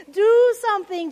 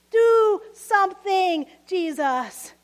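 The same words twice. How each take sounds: First: Louder, higher demand; shouted prayer. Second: Slow shouted prayer. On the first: Martha shouting her prayer at Jesus, louder and higher. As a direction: fling the plea upward. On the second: Worshipper shouting a prayer to Jesus, slow and loud. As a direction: drag the demand out. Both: Retold or imitated. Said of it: "Anyone shout a similar prayer".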